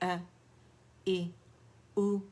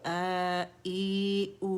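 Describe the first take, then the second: First: The three vowels are short and clipped. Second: The three vowels are drawn out long.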